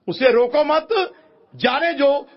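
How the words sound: The pause comes after मत, meaning let go.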